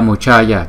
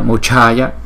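First: The middle consonant is said without a puff of breath. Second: The middle consonant is said with a strong breath. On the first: "Nếu mà là chữ C không á thì chúng ta đọc là Muchaya" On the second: "Chữ C và chữ H chúng ta nhấn hơi mạnh một chút"

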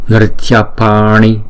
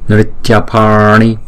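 No difference in how they are said.

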